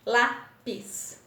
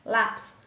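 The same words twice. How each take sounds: First: LÁ - PIS, two separate beats; teacher sounding out LÁ-PIS; split into syllables. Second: Said in the usual way. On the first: Shown as a demonstration. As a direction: say lápis slowly in two pieces, LÁ, PIS. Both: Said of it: "dois pedacinhos".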